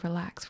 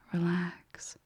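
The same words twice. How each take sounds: First: The word is said in a tense, unsoothing way. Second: The word is said in a calm, soothing way. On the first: The word does not put the listener at ease. The speaker calls it wrong. "it might not be very relaxing to you" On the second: The word puts the listener at ease. The speaker calls it right. "all of a sudden the meaning, the intent just changes"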